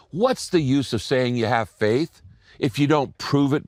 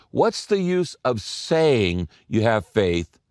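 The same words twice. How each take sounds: First: Said in the usual way. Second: Slow and deliberate, leaning on the word saying; slow emphasis on saying. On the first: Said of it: "I want you to circle". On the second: Shown as a demonstration. Preacher stressing saying to his congregation, slow and deliberate. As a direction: press on saying so the class circles it. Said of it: "the word saying".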